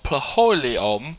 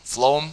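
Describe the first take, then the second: First: The word begins with a 'p' sound. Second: The word begins with an 'f' sound. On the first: The speaker calls it wrong. "if the English language wasn't so messed up, that would be called" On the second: The speaker calls it right. "P H makes that F sound"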